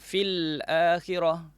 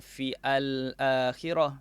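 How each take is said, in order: First: The words run together with no break. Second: The second word starts separately with a new vowel. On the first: The speaker calls it right. "Al-akhirah pun sama" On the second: The speaker calls it wrong. "Kita tak baca fi al-akhirah"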